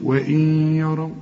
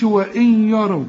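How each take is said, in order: First: وإن يروا chanted with the nun merged into a doubled ya; idgham recitation. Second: وإن يروا with the nun pronounced clearly, wrong; wrong reading. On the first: Teacher showing the correct merge of the nun. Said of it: "شوف". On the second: Teacher showing the mistake students make. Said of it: "لكن ما نقولش". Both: Shown as a demonstration.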